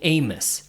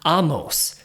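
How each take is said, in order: First: The name is said the usual English way. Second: The name is said the Hebrew way. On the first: The speaker calls it wrong. "I always pronounce my name Amos, right? Like famous Amos" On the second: The speaker calls it right. "the proper way to pronounce it in Judaism and in Hebrew"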